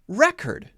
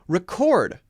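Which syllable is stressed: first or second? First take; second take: first; second. First: The stress is on the first syllable. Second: The stress is on the second syllable. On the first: It is the noun. "we'll stress the other syllable, the first syllable" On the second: It is the verb. "If it's a verb, it's usually going to stress the second syllable"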